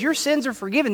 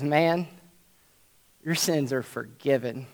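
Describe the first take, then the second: First: "Your sins are forgiven" lifted higher, pressed on "your"; preacher stressing the key line for his listeners; emphatic repeat. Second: Hushed, soft "your sins are forgiven"; Jesus softly telling the paralyzed man his sins are forgiven; quiet pronouncement. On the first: Shown as a demonstration. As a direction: point it out so the crowd can't miss it. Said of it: "don't miss this". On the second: Retold or imitated. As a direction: say it low and gentle, almost under the breath. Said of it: "he says".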